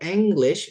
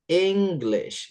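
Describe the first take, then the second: First: The g sound in the middle is dropped. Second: The g sound in the middle is pronounced. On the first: The speaker calls it wrong. "it's not English" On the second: The speaker calls it right. "jadi G-nya tuh tetap dibaca English"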